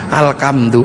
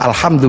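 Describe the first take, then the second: First: The second consonant is a hard k sound. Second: The second consonant is a breathy h sound. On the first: "punyanya ko, gak punya huruf ha, maka alhamdu menjadi alkam" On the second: "gak punya huruf ha"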